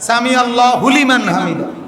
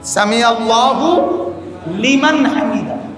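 First: An extra 'hu' sound comes before 'liman'. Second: 'Liman' follows directly with no extra sound. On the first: The speaker calls it wrong. "আমরা তো এভাবে বলি না, আপনারা পড়েন" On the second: The speaker calls it right. "হুলিমান না তো"

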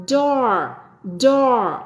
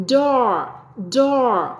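The two takes are said the same way.

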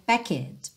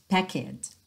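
Both takes have the same delivery.

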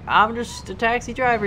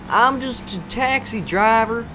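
First: It is said in the speaker's ordinary accent. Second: It is said in a put-on Southern accent.

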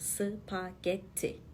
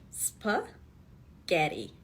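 First: A vowel is inserted, giving four syllables. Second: No vowel is inserted, giving three syllables. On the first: The speaker calls it wrong. "Türkçe'de söylerken 4 hece var gibi çıkıyor" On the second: The speaker calls it right. "Ama İngilizce'de 3 heceli"

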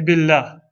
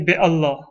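First: The two words merge into one word. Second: The two words are said separately. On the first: The speaker calls it right. "we say billah" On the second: The speaker calls it wrong. "We don't say bi Allah"

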